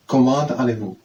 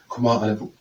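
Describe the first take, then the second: First: "comment allez-vous" with the T of comment sounded; English-style reading. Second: "comment allez-vous" in French, silent T in comment; French line. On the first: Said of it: "as if it would be like English". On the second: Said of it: "Now the French line". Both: Shown as a demonstration.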